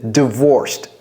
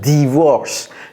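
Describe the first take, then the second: First: The word is said with an English pronunciation. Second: The word is said with a French pronunciation. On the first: The speaker calls it right. "J'ai dit d, d, d, divorced" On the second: The speaker calls it wrong. "j'ai pas dit divorce"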